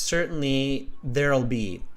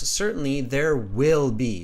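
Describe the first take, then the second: First: Will is contracted and unstressed. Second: Will is said in full with strong stress. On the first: The speaker calls it wrong. "you're really contracting your words" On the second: The speaker calls it right. "So put a big stress on will"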